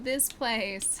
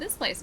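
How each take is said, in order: First: It sounds flat and disappointed. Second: It sounds warm and delighted. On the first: The place seems bad. The speaker calls it wrong. "don't say it like this. Not" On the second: The place is really nice. The speaker calls it right. "You guys are supposed to be like"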